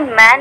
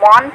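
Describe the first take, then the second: First: The vowel is spread, without lip rounding. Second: The vowel is rounded, with lips rounded. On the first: The speaker calls it right. "मुंह गोल नहीं हुआ" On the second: The speaker calls it wrong. "मुंह गोल हो करके ... मौन हो जाएगा"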